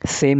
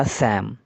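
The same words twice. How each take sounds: First: सेम said with a long "ay" vowel, as in same; correct reading. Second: सैम said with a flat open "a" as in Sam, lower and softer; wrong reading. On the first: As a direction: give सेम the "ay" sound of same, the right way. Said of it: "सेम नहीं". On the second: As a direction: read सैम like the name Sam, the mistaken way. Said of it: "पढ़ने में यह सैम होता". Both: Shown as a demonstration.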